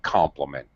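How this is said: The word compliment is said on a low pitch. "you have that secondary low pitch"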